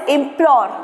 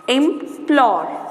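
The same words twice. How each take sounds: First: Said in the usual way. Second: "Implore" broken as im, pause, plore; drawn-out teaching split of Implore; split into syllables. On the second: Shown as a demonstration. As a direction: leave a clear gap inside Implore. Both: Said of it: "you just split the words".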